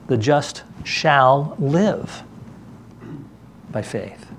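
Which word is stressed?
live. The stress is on "live".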